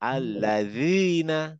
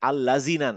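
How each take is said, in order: First: The middle consonant is a th-like sound. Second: The middle consonant is a plain z sound. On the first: The speaker calls it right. "জিভটা দাঁতের থেকে বের হয়ে যাবে" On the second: The speaker calls it wrong. "আল্লাযিনা না"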